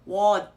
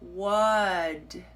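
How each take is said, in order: First: The final consonant is not fully pronounced. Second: The final consonant ends with a tiny released sound. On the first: "not pronounce the uh, last consonant sound completely" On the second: "tiny little escaping sound at the end"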